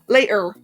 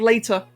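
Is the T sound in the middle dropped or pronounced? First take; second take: dropped; pronounced. First: The middle T sound is dropped. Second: The middle T sound is clearly pronounced. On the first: The speaker calls it wrong. "skip the T's in their words" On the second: The speaker calls it right. "instead of"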